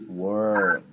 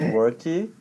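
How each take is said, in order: First: The word ends cleanly on the final consonant. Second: An extra vowel sound follows the final consonant. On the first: The speaker calls it right. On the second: The speaker calls it wrong. "Not worky"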